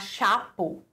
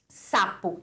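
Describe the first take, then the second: First: The word begins with a distorted 'sh' sound. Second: The word begins with a clear 's' sound. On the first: "falar chapo, né? E distorcer o som" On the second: "se eu for falar sapo"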